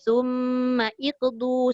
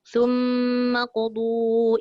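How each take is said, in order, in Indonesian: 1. Kata kedua dimulai dengan bunyi 'i' yang terpisah. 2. Kata kedua menyambung langsung, tanpa 'i'. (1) "Jangan pula kita baca thumma iqdu" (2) "sebab kita nak baca sambung"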